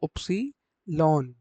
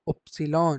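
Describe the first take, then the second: First: Upsilon stretched very slowly, each syllable "oop-see-lon" drawn out; slow German letter Y. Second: Upsilon said at normal pace as "oop-see-lon"; quick demo of Upsilon with oo at the start; German letter Y. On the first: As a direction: spell Upsilon out slowly for the learners. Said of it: "German में क्या बोलना है इसको". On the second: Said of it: "German में आप इसको बोलेंगे upsilon". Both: Shown as a demonstration.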